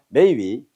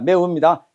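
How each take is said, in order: First: The second syllable is a 'wi' sound. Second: The second syllable is a plain 'u' sound. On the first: "중국어로는 해봅니다" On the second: "우리 발음 매운데"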